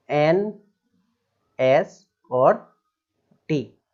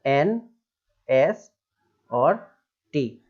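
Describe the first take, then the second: No difference in how they are said.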